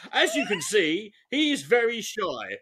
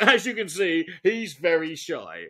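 First: Slow sarcastic delivery of "very shy"; drawn-out mocking tone. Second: Sincere. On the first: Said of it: "in a sarcastic tone". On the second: Shown as a demonstration. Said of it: "you don't say in a sarcastic tone".

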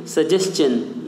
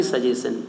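First: सजेशन with st-ch, सजेस्चन; correct suggestion. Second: सजेशन with a plain शन, सजेसन; the common mistake, सजेशन without the च; wrong suggestion. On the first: Teacher leading students to repeat: सजेशन as सजेस्चन. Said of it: "मेरे साथ बोलिए". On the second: Teacher showing the wrong way: सजेशन as सजेसन. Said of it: "ना कि सजेशन". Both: Shown as a demonstration.

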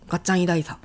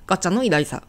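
First: ガッチャン偉大さ with no の in between; linking particle dropped. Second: Said in the usual way. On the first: Shown as a demonstration. Teacher testing an awkward omission, ガッチャン偉大さ with particle dropped. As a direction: run ガッチャン straight into 偉大さ, leaving out の. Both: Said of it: "のを省いてもオーケー".

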